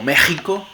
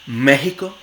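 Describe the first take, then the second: First: The x is a harsh sound far back in throat. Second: The x is a breathy glottal h sound. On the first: "se puede realizar como fricativa uvular sorda" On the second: "Suele realizarse como fricativa glotal sorda"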